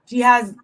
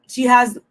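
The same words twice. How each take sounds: The two takes are said the same way.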